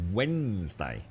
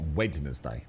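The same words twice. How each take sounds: First: The D in the middle is silent. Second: The D in the middle is pronounced. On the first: The speaker calls it right. "you don't pronounce the D" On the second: The speaker calls it wrong.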